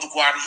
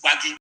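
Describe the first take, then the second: First: "Gwari" said the Hausa way, GWA-ri with an r; "Gwari" as outsiders say it, r in the middle; wrong Hausa name. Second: "Gwagi" said GWA-gi with a hard g, no r; "Gwagi" the proper way, hard g sound; correct native name. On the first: Correcting outsiders on his people's name, saying the wrong version "Gwari". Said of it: "They call them Gwari. It is not Gwari". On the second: Insisting on the true name of his people, "Gwagi" with a hard g. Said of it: "That is the correct pronunciation". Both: Shown as a demonstration.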